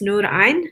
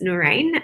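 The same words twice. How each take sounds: First: The name is said with Arabic sounds. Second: The name is said with English sounds.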